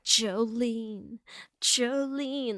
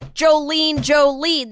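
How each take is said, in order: First: It is said in a moaning, sensual way. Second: It is said in an angry, harsh way.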